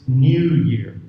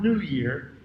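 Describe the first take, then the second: First: New is said like nyoo, with a y sound. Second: New is said like noo, with no y sound. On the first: The speaker calls it right. "But this is British English" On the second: The speaker calls it wrong. "so it's not New Year"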